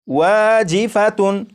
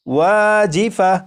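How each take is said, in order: First: The word ends with a full 'tun' sound. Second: The word ends with a soft 'ah' sound. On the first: The reading continues without stopping on the word. "ये जो लफ्ज़ है ये है वाजिफातुन" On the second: The reader stops on this word. "जब इस लफ्ज़ पर वक्फ करेंगे तो ... ये पढ़ा जाएगा वाजिफा"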